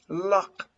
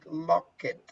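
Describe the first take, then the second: First: The ending is a short t sound. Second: The ending is said as an extra syllable. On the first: The speaker calls it right. "You don't pronounce the ed, but like a t" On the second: The speaker calls it wrong. "you made some mistakes when you say locket"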